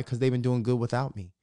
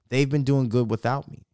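First: Said in the usual way. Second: Repeating it to fans to stress the point; emphatic repeat. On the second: Real, not acted. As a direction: lean into "They've" to drive the point home.

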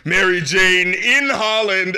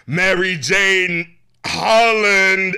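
First: Slow, stretched, mock-sung "in Holland"; imitating [name]'s delivery. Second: Slow, drawn-out, louder imitation of [name]; imitating [name]'s delivery. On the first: Host mimics [name]'s other version of the lyric, slow. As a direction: drag the words out, mocking. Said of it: "another part where she was like". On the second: Host mimics how [name] sang the line, drawn out. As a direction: stretch each word like her odd lyric. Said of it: "The way she said it, it was like".

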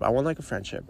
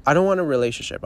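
First: Said in the usual way. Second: Want stressed with a firm fall. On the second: Real, not acted. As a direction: lean on "want" in "I don't want a relationship".

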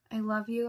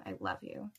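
First: Said in the usual way. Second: Breathy fading whisper. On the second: A narrator's reading. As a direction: let it die into a whisper. Confession fades to a whisper.

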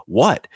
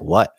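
First: Higher, disbelieving echo; incredulous what. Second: Mild, puzzled question in the usual pitch; oblivious what. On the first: Witness answering the oblivious pilot, incredulous and higher. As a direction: throw the question back in amazement. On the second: Twin-engine pilot asked about the near miss, mildly oblivious. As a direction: lightly imitate someone with no idea. Other pilot's clueless reply, acted. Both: Retold or imitated.

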